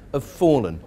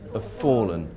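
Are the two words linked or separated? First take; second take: linked; linked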